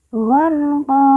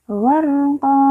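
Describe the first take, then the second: No difference in how they are said.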